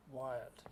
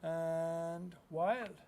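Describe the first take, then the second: First: Softer, lower echo of the word wild; hushed repeat of "wild"; quiet echo. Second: Said in the usual way. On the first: Acted. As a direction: let "wild" fade away like an echo. Echoed title word.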